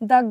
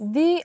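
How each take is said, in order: First: The vowel of 'the' is a short 'uh'. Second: The vowel of 'the' is a long 'ee'. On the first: The next word starts with a consonant sound. "কনসোনেন্টের আগে টিএইচি বসলে দা হবে" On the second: The next word starts with a vowel sound. "Vowel sound করে, তখনই কিন্তু আমরা টিএইচি কে দি বলবো"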